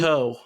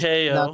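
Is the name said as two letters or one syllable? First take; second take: one syllable; two letters. First: The name is said as one single syllable. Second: The name is said as two separate letters. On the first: The speaker calls it right. "It is Ko" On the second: The speaker calls it wrong. "it's not K O"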